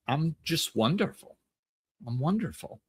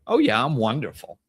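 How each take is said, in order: First: Soft, sincere and unhurried; mean it gently, with no boast; quiet, truthful self-appreciation; honest self-love. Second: A touch of cocky self-satisfaction; egoic. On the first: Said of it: "that's self-love. And it's true and it's honest". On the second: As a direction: say it like you're better than others. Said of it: "Now all of a sudden that's egoic". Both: Shown as a demonstration.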